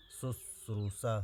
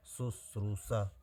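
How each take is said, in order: First: शुश्रूषा said slowly, every syllable apart; slow careful word. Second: शुश्रूषा said slowly, each syllable apart; slow careful word. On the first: Teacher warning exam students, slow careful pronunciation. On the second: Teacher recapping the spelling, slow careful pronunciation. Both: Shown as a demonstration. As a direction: lay out शुश्रूषा slowly for dictation. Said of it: "आप लोग ध्यान रखिएगा".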